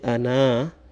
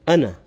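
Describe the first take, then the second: First: The final vowel is drawn out long. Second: The final vowel is short and clipped. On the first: The speaker calls it wrong. "instead of saying ana" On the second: The speaker calls it right. "you don't pronounce the extra alif in the end"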